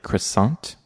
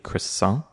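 First: A T sound is heard at the end. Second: No T sound is heard at the end. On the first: The speaker calls it wrong. "They'll pronounce the T on the end" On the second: The speaker calls it right. "so not pronouncing the T"

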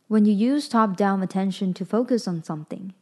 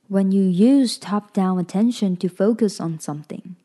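First: It is read at a normal speed. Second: It is read a little more slowly.

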